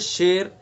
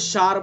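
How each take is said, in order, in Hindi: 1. स्वर बीच का e है। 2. स्वर लंबा a है। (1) "दोनों के दरमियान पढ़ना है" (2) "अगर ज़बर पढ़ेंगे तो शार बन जाएगा"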